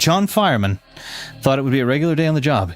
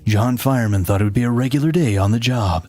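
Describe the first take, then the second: First: It is said in a plain, ordinary voice. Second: It is said in a dramatic trailer voice.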